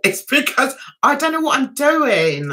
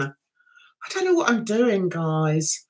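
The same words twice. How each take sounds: First: Said in the usual way. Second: Quieter, trailing off on "guys"; softer sheepish repeat. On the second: Real, not acted. Streamer admits to chat, quiet and sheepish. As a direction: drop the voice, embarrassed.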